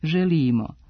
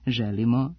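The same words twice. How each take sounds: First: The word has a long rising accent. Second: The word has a short rising accent. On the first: "i dugouzlaznim akcentom" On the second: "sa kratkouzlaznim"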